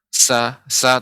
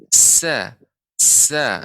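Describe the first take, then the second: First: The s is short with little hiss. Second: The s is long with strong hissing. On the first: The speaker calls it wrong. "bukan hanya sin pengucapan Indonesia biasa" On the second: The speaker calls it right. "Jadi lebih banyak lagi desisnya"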